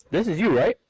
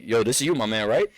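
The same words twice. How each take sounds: First: Higher, louder put-on Indian accent; imitated scammer with an Indian accent. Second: Said in the usual way. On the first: Scam caller checking personal information, imitated Indian accent. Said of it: "switch off an Indian accent". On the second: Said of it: "instantly switch off an Indian accent".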